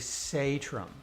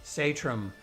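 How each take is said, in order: First: The name is said with Norwegian pronunciation. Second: The same.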